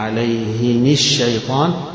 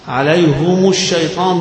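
First: Both the h and the m take an i vowel. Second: Both the h and the m take a u vowel. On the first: "هيكسر الاثنين" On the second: "ضمتين"

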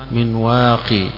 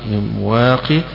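First: The word ends with a long 'ee' vowel. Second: The word ends with a long 'ee' vowel.

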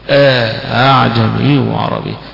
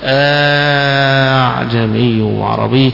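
First: The second hamza is softened after an inserted alif. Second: The second hamza becomes a long drawn-out vowel. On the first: "يسهل مع إدخال الألف" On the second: "بالمد فيها"

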